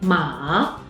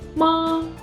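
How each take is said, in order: First: It is said with the third tone. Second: It is said with the first tone. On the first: It means horse. "is the third tone" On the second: It means mom. "is the first tone"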